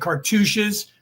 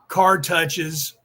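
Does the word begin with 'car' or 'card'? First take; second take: car; card. First: It is said as one word, car-tooshes. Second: It is said like two words, card touches. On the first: The speaker calls it right. "they're trying to say cartouches" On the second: The speaker calls it wrong. "they're saying it wrong"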